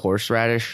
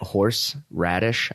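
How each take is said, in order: First: It is said as one run-together word. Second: It is said as two separate words. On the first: The speaker calls it wrong. "if I start saying it, like" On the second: The speaker calls it right. "I have to do two words"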